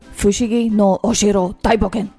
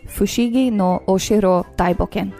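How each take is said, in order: First: It is said in an angry, tough voice. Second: It is said in a calm, plain voice. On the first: The speaker calls it right. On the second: The speaker calls it wrong.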